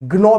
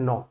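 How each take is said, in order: First: The word starts with a hard g sound. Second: The word starts with n, no g sound. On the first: The speaker calls it wrong. "ग्नौ भी इसको नहीं बोलेंगे" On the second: The speaker calls it right. "इसको बोलते pronounce करते हैं नौ"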